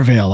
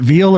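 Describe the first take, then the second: First: "Veil" said as VALE, rhyming with sail; alternate pronunciation. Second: "Veil" said as VEEL, rhyming with feel; alternate pronunciation. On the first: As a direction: say "Veil" with an ay vowel. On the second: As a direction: say "Veil" with a long ee vowel. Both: Shown as a demonstration. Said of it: "Is it Veil or Veil?".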